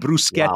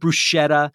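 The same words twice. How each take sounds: First: The middle is said with an S-K sound. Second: The middle is said without a K sound. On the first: The speaker calls it right. "bruschetta is not" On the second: The speaker calls it wrong. "not bruschetta"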